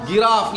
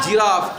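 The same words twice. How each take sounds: First: गिराफ starting with g as in give; hard g misreading. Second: जिराफ starting with a "j" sound; soft g. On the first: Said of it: "इसको गिराफ नहीं पढ़ना". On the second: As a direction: model जिराफ, g softened to j. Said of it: "क्या पढ़ना है". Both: Shown as a demonstration.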